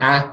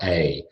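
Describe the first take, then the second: First: A as the short vowel in cat. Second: A as the gliding vowel in day; diphthong. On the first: Teacher contrasting vowel with diphthong, short a. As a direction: say a as a pure short "aa". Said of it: "One is a vowel sound". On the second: Teacher naming the other sound, diphthong a. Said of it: "the other one is a diphthong sound". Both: Shown as a demonstration.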